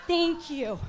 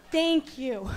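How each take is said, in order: Both takes have the same delivery.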